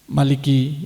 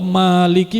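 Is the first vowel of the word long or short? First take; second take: short; long. First: The first vowel is said short. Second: The first vowel is clearly drawn out long. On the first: The speaker calls it wrong. "bukan begitu" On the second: The speaker calls it right. "Kalau Maliki panjang ya panjang, jelas panjangnya"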